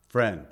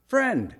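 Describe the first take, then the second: First: Said in the usual way. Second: Friend said high and pointed, falling hard. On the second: Shown as a demonstration. Preacher echoing Jesus' word to Judas, pointed. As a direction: lift Friend up high in dismay. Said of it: "He sells him out".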